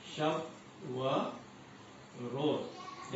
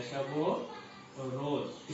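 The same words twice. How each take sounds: First: "शब" "व" "रोज" as three separate words with pauses between. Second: "शब व रोज" run together as shab-o-roz, very slow; linked reading. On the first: Teacher showing students the unlinked reading, word by word. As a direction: say शब, then व, then रोज, each on its own. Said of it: "लेकिन पढ़ते हैं उसको शब व रोज". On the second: Teacher demonstrating the correct shab-o-roz pronunciation, very slow. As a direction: glide शब into व as one word, drawn out. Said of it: "तलफ़ुज़ इस तरह से आ सकता है". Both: Shown as a demonstration.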